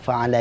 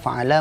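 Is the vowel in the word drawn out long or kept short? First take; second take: short; long. First: The vowel is kept short. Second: The vowel is drawn out long. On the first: The verb refers to one doer. The speaker calls it right. "Padahal fa'ala ini pendek" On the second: The verb refers to two doers. The speaker calls it wrong. "Kalau dibaca panjang"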